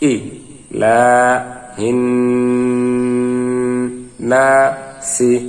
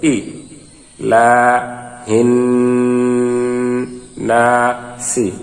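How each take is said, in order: Both takes have the same delivery.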